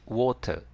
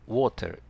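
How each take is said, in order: No difference in how they are said.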